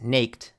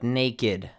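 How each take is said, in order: First: The ending is a plain t sound. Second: The ending is an extra id syllable. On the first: The speaker calls it wrong. "naked is not pronounced naked" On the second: The speaker calls it right. "but naked"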